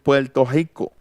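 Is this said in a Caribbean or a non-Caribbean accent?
Caribbean. It is said in a Caribbean Spanish accent. "dicen Puerto Rico"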